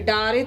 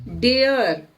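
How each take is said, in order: First: It is read as two syllables, 'daa-re'. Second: It is read as one syllable, 'dare'. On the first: The speaker calls it wrong. "डारे तो पढ़ेंगे नहीं इसको" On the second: The speaker calls it right. "इसको पढ़ेंगे डेयर"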